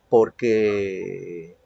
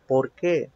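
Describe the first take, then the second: First: "porque" drawn out and left hanging; explanatory "porque". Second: "por qué" with the weight on "qué"; questioning "por qué". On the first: Teacher contrasts it with the question, "porque" slow and trailing. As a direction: stretch the end of "porque" as if an explanation follows. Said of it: "porque a manera de explicación". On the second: Teacher shows students the question word, "por qué" stressed on "qué". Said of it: "es preguntar". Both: Shown as a demonstration.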